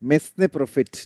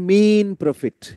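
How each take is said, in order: First: The first word is said with two syllables, 'mes-nay'. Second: The first word is said as one syllable, 'meen'. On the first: The speaker calls it wrong. "এইটার উচ্চারণ অনেকে কি বলে?" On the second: The speaker calls it right. "এটার উত্তর হচ্ছে মিন profit"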